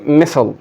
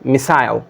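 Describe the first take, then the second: First: It ends with a short, reduced vowel sound. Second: It ends with a full 'eye' vowel sound. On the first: "American English में इसे मिसल इस तरह बोला जाता है" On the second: "British में ये आई पढ़ते हैं"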